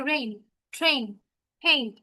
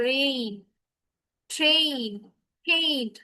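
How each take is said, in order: First: Said in the usual way. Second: রেইন, ট্রেন, হেইড each drawn out slowly, vowels held; drawn-out pronunciation. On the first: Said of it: "এটার উচ্চারণ হবে". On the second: Shown as a demonstration. Teacher showing how not to say it, রেইন, ট্রেন, হেইড overstretched. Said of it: "এইভাবে কিন্তু বলছি না".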